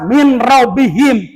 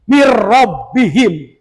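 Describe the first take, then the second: First: The n is clearly pronounced before the r. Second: The n merges into a doubled r sound. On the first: The speaker calls it wrong. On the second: The speaker calls it right.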